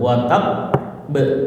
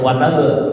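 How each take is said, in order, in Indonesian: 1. Huruf b ganda ditahan dulu sebelum dilepas. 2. Huruf b ganda langsung dilepas, tanpa ditahan. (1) "Sidahnya tadi ditekan ditahan dulu" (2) "jadi nggak langsung"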